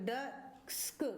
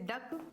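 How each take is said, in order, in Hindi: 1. अंतिम k से पहले s की ध्वनि आती है। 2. शब्द केवल k की ध्वनि से खत्म होता है। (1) "बहुत से बच्चे डस्क पढ़ देंगे, क्योंकि सी का साउंड सा पढ़ देंगे" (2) "सी के एक साथ आ जाए तो इसको हम क प्रोनाउंस करेंगे"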